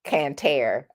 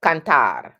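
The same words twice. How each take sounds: First: "cantar" as "can-TARE" with flat English R. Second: "Cantar" with open vowels and a trilled ending; rolled Spanish R. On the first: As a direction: say "cantar" with no roll, like "can tear". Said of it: "as opposed to". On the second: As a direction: bounce the final R of "Cantar", Spanish style. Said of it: "And so it's multiple". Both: Shown as a demonstration.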